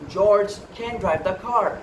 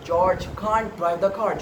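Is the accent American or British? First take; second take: American; British. First: It is said with an American accent. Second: It is said with a British accent. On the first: "example sentence is in American English" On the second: "but in the British English it is"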